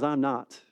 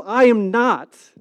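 First: Lower, softer brief denial; low-key denial. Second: Loud, slow, raised denial; emphatic denial. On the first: Disciple denying Jesus to a girl, low-key. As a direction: brush it off quietly and low. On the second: Disciple denying Jesus to the crowd, emphatic. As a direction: spell it out slowly and loudly, word by word. Peter's louder second denial. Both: Acted.

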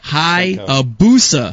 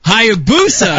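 First: Hayabusa said very slowly, syllable by syllable; over enunciating. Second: Hayabusa said fast and loud, falling at the end; loud and clear. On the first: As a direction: stretch out Hayabusa, ha-ya-bu-sa. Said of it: "Watch, watch my lips". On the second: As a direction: Hayabusa called out with a firm drop. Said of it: "You hear that?". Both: Shown as a demonstration.

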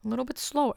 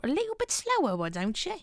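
First: Said in the usual way. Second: High squeak, slowing down; squeaky high voice. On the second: Pretend.

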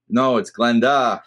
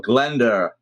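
First: "Glenda" slowed, ending on an open ah; slow correction, open final vowel on Glenda; correcting the pronunciation. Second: "Glenda" with an R tacked on the end; slow Glend-er for Glenda; New England R. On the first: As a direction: say Glenda with no R, Glen-dah. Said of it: "they got a great idea". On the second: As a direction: stretch Glenda out, ending in an R. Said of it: "the hardest one is in New England". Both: Shown as a demonstration.

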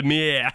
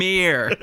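First: "mirror" without any R, like "mih-uh"; Boston mirror. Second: "mirror" with a hard R at the end. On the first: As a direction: drop both R's in "mirror" Boston style. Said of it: "you shouldn't hear any R's in there". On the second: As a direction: say "mirror" ending on a clear R sound. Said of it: "You just ended mirror with a hard R". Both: Shown as a demonstration.

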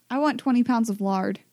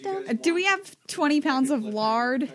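First: Said in the usual way. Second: Slow, drawling Midwestern pioneer voice; Midwestern accent. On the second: Pretend. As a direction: ask it like a Midwestern settler. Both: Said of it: "do my Midwestern accent".

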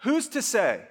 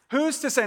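First: Lightly voiced everyday skeptic, raised pitch; casual modern shrug. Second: Higher and punchier, leaning on Who's; emphatic challenge. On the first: Preacher voicing how people ask it today, casual. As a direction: toss off Who's as a casual challenge. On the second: Preacher repeating the modern question to the church, emphatic. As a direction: fire Who's off as a pointed dare. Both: Shown as a demonstration. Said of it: "Today, we would say it more like this".

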